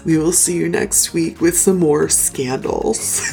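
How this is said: It is said in an imitated, put-on voice.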